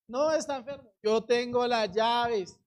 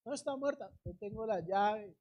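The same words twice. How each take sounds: First: "yo tengo las llaves" slowly drawn out and firm; emphatic declaration. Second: Soft, understated certainty; quiet assurance. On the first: Same answer built to emphatic take. ("yo tengo las llaves" con énfasis, lento y firme) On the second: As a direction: answer softly, sure of your authority. Acts Jesus's answer, first soft take. (seguridad serena, en voz baja) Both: Acted.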